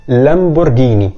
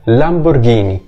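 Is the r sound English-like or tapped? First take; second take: tapped; tapped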